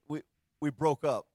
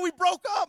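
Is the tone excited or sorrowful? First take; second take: sorrowful; excited. First: It is said in a sad, sorrowful tone. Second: It is said in an excited, upbeat tone. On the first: The breakup is a loss. "Why do we say it with such sorrow?" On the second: The breakup is good news. "do they ever say it with excitement. It's never like"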